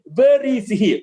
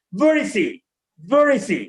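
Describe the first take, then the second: First: "Where is he" in three separate words, sounded h; wrong way. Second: "Where is he" linked as "ve-ri-zee"; corrected linking. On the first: Teacher showing how people ask, wrong way. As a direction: keep "Where", "is" and "he" apart. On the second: Teacher modelling the question, corrected linking. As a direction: run "Where is he" into one word, no h. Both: Shown as a demonstration.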